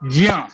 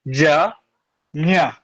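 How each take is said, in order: First: The two sounds are blended into one syllable. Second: The two sounds are said apart with a break.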